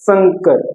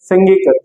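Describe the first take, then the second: First: The nasal is a plain 'n' sound. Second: The nasal is a clear velar 'ng' sound. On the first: This is how people commonly say it. "लेकिन बोला क्या जाता है इसको" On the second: This is the pure sound of the word. "अब देखो इन इसको बोला क्या जाएगा"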